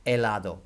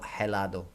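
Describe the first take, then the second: First: Helado said with no H, eh-LAH-doh; silent h. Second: Helado with a breathy H at the start, heh-LAH-doh; wrong h. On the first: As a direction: drop the H in Helado, start on the vowel. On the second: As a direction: sound the H in helado to show the mistake. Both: Shown as a demonstration. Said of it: "Don't pronounce the H".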